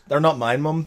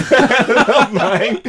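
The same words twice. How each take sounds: First: Said in the usual way. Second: High, slow, laughing through the words; giggling mock denial. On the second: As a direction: replay the lie while cracking up. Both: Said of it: "He's lying".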